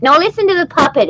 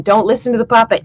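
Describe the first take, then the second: First: Brighter puppet voice; cheeky puppet talking back; sock puppet voice. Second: Quick lower puppeteer voice; brisk, correcting puppeteer. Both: Acted.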